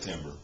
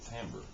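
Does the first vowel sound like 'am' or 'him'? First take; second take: him; am. First: The first vowel sounds like the 'i' in him. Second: The first vowel sounds like the 'a' in am. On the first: The speaker calls it wrong. "Most people do say timbre because it's spelled with an I" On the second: The speaker calls it right. "you pronounce it timbre"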